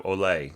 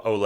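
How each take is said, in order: First: "ole" with weight on the final "le"; accent the "le" of "ole", not the "o"; stress on second syllable. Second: "ole" with weight on the opening "o"; accent the "o" of "ole", not the "le"; stress on first syllable. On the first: Teacher contrasts the accustomed accent, second-syllable stress on "ole". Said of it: "instead of ole". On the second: Teacher voices a possible correction, first-syllable stress on "ole". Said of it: "you really, people should yell ole instead of ole". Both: Shown as a demonstration.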